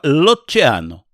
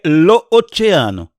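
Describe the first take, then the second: First: The article's vowel is dropped, joining l to oceano. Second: Both vowels are said, lo then oceano. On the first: The speaker calls it right. "coloca-se um L com apóstrofo e se fala" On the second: The speaker calls it wrong. "o certo seria"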